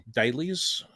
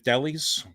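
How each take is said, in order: First: Dahlias said "DAY-leez", long A; long-A pronunciation. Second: Dahlias said "DAL-eez", short A; short-A pronunciation. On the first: Streamer adding the other version, Dahlias as "DAY-leez". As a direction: say Dahlias like the word "dailies". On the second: Streamer praising a plant nursery, Dahlias as "DAL-eez". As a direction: rhyme Dahlias with "rallies". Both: Shown as a demonstration. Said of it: "which way you'd pronounce it".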